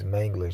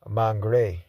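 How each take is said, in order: First: The name is said in the standard way. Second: The name is said in the local way. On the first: This is the proper pronunciation. "the pronunciation is" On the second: This is what local people call it. "we call it"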